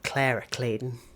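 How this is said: The name is said in an American accent.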